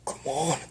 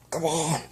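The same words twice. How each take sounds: First: Mild grunt of effort on come on, on rises. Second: Frantic shout. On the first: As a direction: strain a little through come on. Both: Acted. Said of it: "he grunted".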